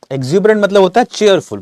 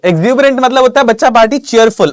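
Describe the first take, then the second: First: Said in the usual way. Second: High, loud, eager answer reveal; excited reveal. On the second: Real, not acted. Teacher excitedly revealing the answer to his students. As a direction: announce the answer with a burst of excitement.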